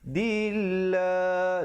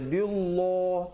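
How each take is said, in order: First: The L sound is light and thin. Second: The L sound is heavy and thick. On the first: The speaker calls it right. "Dia kena baca nipis" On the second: The speaker calls it wrong. "tak betul"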